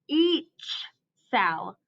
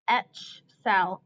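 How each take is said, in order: First: The first word has a long 'ee' vowel. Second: The first word has a short 'e' vowel. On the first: The speaker calls it right. "I'm going to flip the vowel" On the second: The speaker calls it wrong. "that doesn't sound right"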